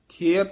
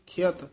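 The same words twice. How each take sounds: First: The word is drawn out with a lengthened vowel. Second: The word is said quickly and short. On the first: The speaker calls it wrong. "ਨਹੀਂ ਕਹਿਣਾ ਲਾਉ ਲਾ ਕੇ" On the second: The speaker calls it right. "ਇਸ ਤਰ੍ਹਾਂ ਛੇਤੀ ਬੋਲਿਆ ਜਾਏਗਾ"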